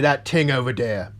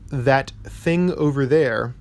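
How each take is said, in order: First: Thing starts with a t sound. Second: Thing starts with a normal th sound. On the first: "replace soft uh, T H sounds with Ts" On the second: "So if you say uh"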